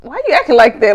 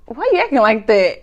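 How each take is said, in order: First: Louder retold quote. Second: Laughing quote. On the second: Retold or imitated. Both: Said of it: "He was like".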